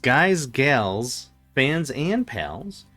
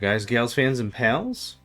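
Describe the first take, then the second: First: It is said slowly. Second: It is said fast.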